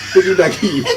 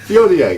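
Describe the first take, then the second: First: The name sounds like viggy-naggy. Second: The name sounds like vee-on-yay. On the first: The speaker calls it wrong. "not Viognier. Viggy Naggy, please" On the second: The speaker calls it right. "we pronounce it Viognier"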